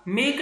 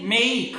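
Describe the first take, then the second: First: मेक with a pure flat e; wrong flat mek. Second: मेक with an ei glide, meik; correct make. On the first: Teacher showing the mistake, flat मेक. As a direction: cut मेक short, no glide. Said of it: "मेक नहीं". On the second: Teacher modelling the right sound, gliding मेक. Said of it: "आप गलत बोलोगे". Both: Shown as a demonstration.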